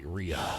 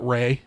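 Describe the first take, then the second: First: The name sounds like 'Ree-uh'. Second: The name sounds like 'Ray'. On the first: This is how the spelling reads at first sight. "when I see it and I read it, I'm just like Rhea" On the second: This is how the owner of the name says it. "she s- pronounces it Ray"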